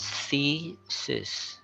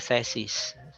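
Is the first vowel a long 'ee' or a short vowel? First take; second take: long ee; short. First: The first vowel is a hard long e. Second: The first vowel is short, not a hard e. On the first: The speaker calls it right. "It's a hard e sound" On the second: The speaker calls it wrong. "No, it's wrong"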